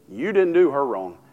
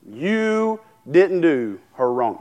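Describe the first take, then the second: First: Said in the usual way. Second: You didn't do her wrong, drawn out slowly with a fall on didn't; slow, weighty, each word set apart, hitting didn't; slow emphatic warning. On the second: Shown as a demonstration. Preacher warns anyone wronging his wife, slow and weighty. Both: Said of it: "You could do me wrong all day".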